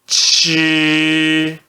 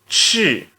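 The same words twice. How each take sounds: First: It is said with the first tone. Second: It is said with the fourth tone. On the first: "C H no primeiro tom" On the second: "E no quarto tom"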